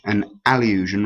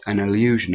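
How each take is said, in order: First: "allusion" with a clear, open A at the start; clear first vowel. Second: Said in the usual way. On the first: Shown as a demonstration. Teacher separating it from illusion, "allusion" with a distinct opening A. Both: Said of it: "rather than an illusion".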